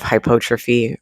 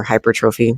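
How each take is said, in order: First: "hypotrophy" said without the r in "hyper"; alternative pronunciation. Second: "hypertrophy" said with "hyper" at the front; alternative pronunciation. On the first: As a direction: say "hypotrophy" with "hypo" at the front. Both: Shown as a demonstration. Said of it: "however you wanna say it".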